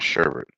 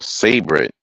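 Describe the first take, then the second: First: The name begins with an 'sh' sound. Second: The name begins with a plain 's' sound. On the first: The speaker calls it wrong. "not sherbet" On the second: The speaker calls it right. "it's called savor it"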